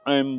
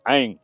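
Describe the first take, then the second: First: It ends with the lips closed on an m. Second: It ends in a nasal vowel, lips open. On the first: The speaker calls it wrong. "बहुत लोग ऐम बोलते हैं, होठ मिला देते हैं तो खत्म हो गया" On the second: The speaker calls it right. "ऐसा बोलना होगा, उच्चारण सही हो"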